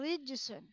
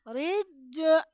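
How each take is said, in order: First: The j has a slight bounce, no pause. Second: The j has a strong, drawn-out bounce. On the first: The speaker calls it right. "cukup baca rijsun" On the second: The speaker calls it wrong. "tidak perlu rijje, nah, tidak perlu seperti itu"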